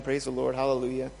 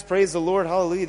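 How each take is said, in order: First: Soft, heartfelt hallelujah; a hushed personal thank you to God; quiet sincere praise. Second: Lightly mocking complacent believer; mock churchy praise. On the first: Real, not acted. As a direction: murmur it with real gratitude. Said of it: "I know I'm saved". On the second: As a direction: toss it off like a cheerful cliché.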